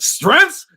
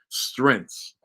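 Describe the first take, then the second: First: The word is said loudly and forcefully. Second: The word is said quietly and low. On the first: The speaker calls it right. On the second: The speaker calls it wrong.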